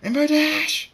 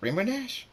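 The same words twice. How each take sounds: First: High, loud furious-sounding scream; screamed name. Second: High, rising puzzled question; confused. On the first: Trixie yells after the passing flier, screaming. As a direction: scream the name, stretching the end. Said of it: "She screams". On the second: Trixie doubts whom she just saw, confused. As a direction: ask the name in bewilderment, without shouting. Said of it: "powerful Trixie is confused". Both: A narrator's reading.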